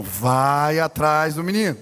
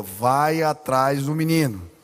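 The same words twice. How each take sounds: First: Lower, slow, insistent command; voice of the Holy Spirit. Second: Lower, slow and solemn; voice of the Holy Spirit. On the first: Holy Spirit insisting again to the protesting pastor, low and slow. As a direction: repeat the order weightily. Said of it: "Falei, "Deus, tô fazendo sermão". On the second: Holy Spirit telling the pastor mid-sermon to go, low and slow. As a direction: speak it as a grave command from above. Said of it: "o Espírito Santo falou". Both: Retold or imitated.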